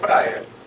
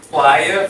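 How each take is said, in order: First: It is said with an R sound, like praia. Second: It is said with an L sound, like plaia. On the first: This is the form that changed over time. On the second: This is the older form that kept the Latin sound. "em vez de ser"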